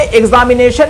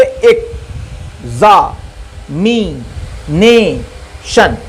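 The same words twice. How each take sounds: First: Said in the usual way. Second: examination drawn out very slowly, each syllable standing alone. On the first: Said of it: "तो इसमें examination में पांच syllable हैं". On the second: Shown as a demonstration. Teacher counting syllables for students, very slow syllable by syllable. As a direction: count out the beats of examination: ek... za... mi... ne... shan. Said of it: "तो इसमें कितने syllable है?".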